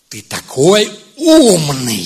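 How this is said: It is said in a mocking, scornful tone. It is an insult disguised as praise. "это обвинение, это факт"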